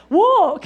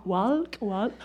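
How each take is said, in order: First: Loud, high burst of getting it; imitating someone who has just worked it out; sudden realization. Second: Hesitant, soft and low, with a questioning lift; imitating a puzzled listener piecing it together; working it out. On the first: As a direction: blurt out WALK as the penny drops. Listeners finally get the word. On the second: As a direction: sound out the word tentatively, under your voice. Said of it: "Some of you are going".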